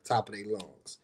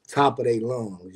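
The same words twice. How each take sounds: First: Said in the usual way. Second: "Top of their lungs" slowed and leaned on, with "top" stressed; slow emphasis. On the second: Shown as a demonstration. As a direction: drag out "Top" and each word for weight.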